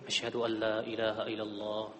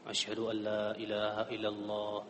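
The two takes are said the same way.

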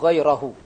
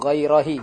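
First: The word ends with a 'u' vowel. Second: The word ends with an 'i' vowel. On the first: The speaker calls it right. "Dibacanya goirohu" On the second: The speaker calls it wrong. "Bukan goirohi, enggak ada"

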